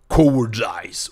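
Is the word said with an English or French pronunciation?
English. It is said with an English pronunciation.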